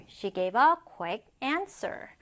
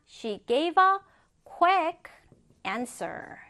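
First: Slow but connected example sentence; joined-up model reading. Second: Word-by-word reading. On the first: Teacher repeating the example whole for students, joined-up model reading. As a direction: say the whole sentence through, slowly. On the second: Teacher first modelling an example for students, word-by-word reading. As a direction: break it up for learners, pausing between chunks. First take, broken into chunks. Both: Shown as a demonstration.

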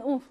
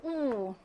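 First: "우" cut short; quick, short "우" without lengthening; short vowel. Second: "우" held out long and soft; soft, drawn-out "우"; long vowel. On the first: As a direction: say "우" as a brief oo. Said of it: "법칙대로 짧은 우". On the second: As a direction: sustain "우" as a long oo. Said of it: "길게 발음해요". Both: Shown as a demonstration.

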